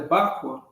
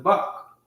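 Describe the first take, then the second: First: The word ends with a 'kwa' sound. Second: The word ends with a plain 'k' sound. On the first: The speaker calls it wrong. "It's not the Bakwa" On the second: The speaker calls it right. "It has a ka sound"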